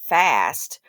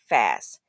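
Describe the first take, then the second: First: The word ends with a clear t sound. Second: The word ends on s with no t. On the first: The speaker calls it wrong. "it actually is not fast" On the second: The speaker calls it right. "They're actually saying fast. F A S S"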